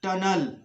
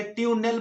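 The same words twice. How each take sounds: First: टनल as "tun-ul"; correct schwa. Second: ट्यूनल as "tyoo-nel"; mistaken reading. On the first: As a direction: model टनल with "uh" in both syllables. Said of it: "यहाँ पर टनल होगा". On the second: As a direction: put a "yoo" and a clear "nel" in ट्यूनल. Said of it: "कुछ लोग गलती से ट्यूनल पढ़ते हैं". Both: Shown as a demonstration.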